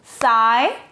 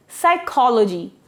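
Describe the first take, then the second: First: Psychology split into four separate syllables with long gaps. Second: Said in the usual way. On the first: Shown as a demonstration. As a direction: break Psychology apart, pausing after each syllable. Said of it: "Four syllable words". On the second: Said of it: "we break the word there".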